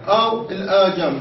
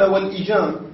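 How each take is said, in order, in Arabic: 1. تبدأ الكلمة بحرف المد الألف الطويل. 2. تبدأ الكلمة بحركة الكسرة القصيرة. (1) "بفتحها مع المد" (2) "بكسر الهمزة"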